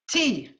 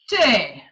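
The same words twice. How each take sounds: First: It is said in a standard accent. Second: It is said in a Yorkshire accent.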